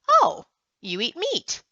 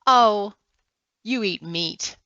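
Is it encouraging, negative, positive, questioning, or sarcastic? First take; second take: questioning; encouraging. First: It is said as a questioning remark. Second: It is said with a warm, encouraging tone. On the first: The speaker is asking whether the listener eats meat. "Is it a question?" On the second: The speaker supports the listener eating meat.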